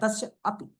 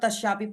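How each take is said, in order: First: There is a short pause between the two words. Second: The two words are run together without a break. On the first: The speaker calls it right. "मतलब यहां रुक रहे हैं" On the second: The speaker calls it wrong. "सब तस्यापी पढ़ते हैं"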